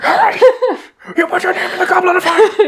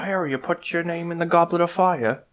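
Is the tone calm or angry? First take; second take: angry; calm. First: It is said in an angry, agitated tone. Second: It is said in a calm, whimsical tone.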